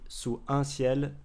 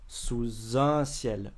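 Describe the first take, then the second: First: The words are said separately without linking. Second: The words flow together with a linking sound. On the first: The speaker calls it wrong. "c'est pas fluide, c'est pas naturel" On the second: The speaker calls it right. "on fait bien la liaison"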